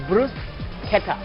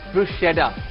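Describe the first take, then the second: First: The word is said with an Italian pronunciation. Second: The word is said with an English pronunciation.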